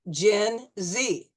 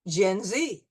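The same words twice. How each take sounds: First: It is said slowly, syllable by syllable. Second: It is said smoothly at normal speed. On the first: "you'll hear it in slow motion syllables" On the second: "at regular speed"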